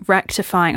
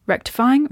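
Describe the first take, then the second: First: RECTIFYING with a settled falling tune; confirming. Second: RECTIFYING with a high, questioning rise. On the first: Podcaster settles on the word she sought, confirming. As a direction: say "rectifying" as the word now found. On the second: Podcaster searching aloud for the word, questioning. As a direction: try out "rectifying" as if unsure it's the word. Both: Real, not acted.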